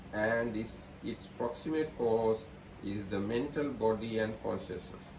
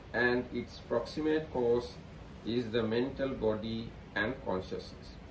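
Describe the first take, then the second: Both takes have the same delivery.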